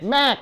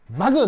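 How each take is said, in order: First: It is said in one syllable, maek. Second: It is said in two syllables, ma-geu. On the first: The speaker calls it right. "맥 그래서 가리켜야 돼요" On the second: The speaker calls it wrong. "마그, 노"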